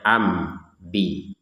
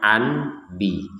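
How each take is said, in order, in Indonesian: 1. Sengau sebelum 'bi' adalah m. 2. Sengau sebelum 'bi' jelas n. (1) "tapi cara membacanya am bi" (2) "cara membacanya bukan an bi"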